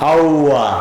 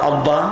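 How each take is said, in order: First: The middle sound is a weak w-like glide. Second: The middle sound is a full lip-closed b. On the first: The speaker calls it wrong. "একটা যদি বাদ দেন... আব্বা হবে আউয়া" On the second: The speaker calls it right. "মিম আর বায়ের মাখরাজ দুই ঠোঁট"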